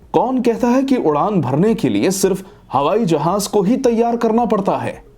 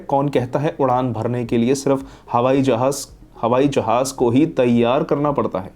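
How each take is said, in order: First: It is asked with a questioning tune. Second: It is said flatly, like a plain statement. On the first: The speaker calls it right. "Question की तरह पूछिए।" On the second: The speaker calls it wrong. "आप बस एक flat वे में बोल रहे हैं"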